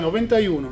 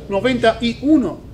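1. Las partes del número se dicen de corrido, sin pausas. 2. Las partes del número se separan con pausas. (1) "es todo corrido" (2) "¿puedo falar 91, 92? Así de esa forma"

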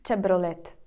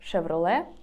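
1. Це вимовляється на іспанський манер. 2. Це вимовляється на український манер. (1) "Іспанці скажуть Chevrolet" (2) "Ми скажемо Chevrolet"

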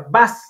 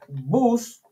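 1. La palabra "bus" se dice con pronunciación inglesa. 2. La palabra "bus" se dice con pronunciación española. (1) "la misma escritura, pero se pronuncia bus" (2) "ya sabemos que es en español"

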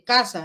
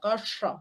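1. La s se produce en la cresta alveolar. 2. La s se produce con la punta de la lengua doblada. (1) "no dicen casa" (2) "Esta es una S retrofleja. La punta de la lengua se dobla"

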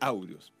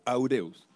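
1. El acento cae en la primera sílaba. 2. El acento cae en una sílaba posterior. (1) "se dice Aureus" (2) "no se dice Aureus"

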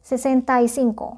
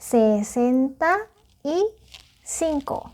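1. เลขนี้พูดเร็ว พูดติดกันค่ะ 2. เลขนี้พูดช้า ทีละคำค่ะ

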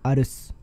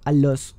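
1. La consonante del medio es una R suave. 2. La consonante del medio es un sonido L. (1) "sino sería, sería arroz" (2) "no sería alos"

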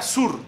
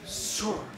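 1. Se dice a la manera colombiana. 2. Se dice a la manera de otro país. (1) "En Colombia" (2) "En otros países"

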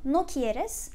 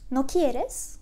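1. Düz bir bildirme tonlamasıyla söyleniyor. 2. Soru tonlamasıyla söyleniyor. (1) "İstemiyorsun" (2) "İstemiyor musun?"

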